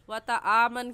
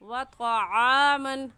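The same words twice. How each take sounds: First: The ain is made without the throat. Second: The ain comes from the middle of the throat. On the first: The speaker calls it wrong. "वतआमन कहना गलत है" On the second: The speaker calls it right. "आइन हलक के दरमियान से निकालने की कोशिश करें"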